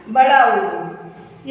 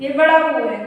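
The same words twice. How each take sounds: First: ऊ in "बड़ा ऊ" stretched very long and slow; drawn-out long vowel. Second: Said in the usual way. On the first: Shown as a demonstration. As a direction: hold the ऊ of "बड़ा ऊ" slowly like a teacher showing a long vowel.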